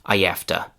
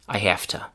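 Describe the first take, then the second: First: I becomes ah, linked by a y sound. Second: It keeps the h, with an f sound. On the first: "where I becomes ah" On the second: "we take the voiced v sound and we change it to unvoiced f"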